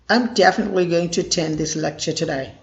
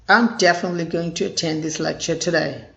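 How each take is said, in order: The two takes are said the same way.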